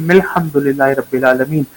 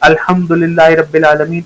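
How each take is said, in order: First: It is joined on, starting with 'mil'. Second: It starts fresh with an 'al' sound. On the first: The speaker calls it right. "इसको पढ़ना है" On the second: The speaker calls it wrong. "इस तरह पढ़ते हैं ना, ... इसको ऐसे नहीं पढ़ना"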